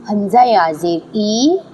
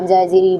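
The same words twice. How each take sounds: First: The final vowel is drawn out long. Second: The final vowel is cut short. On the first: The speaker calls it right. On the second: The speaker calls it wrong.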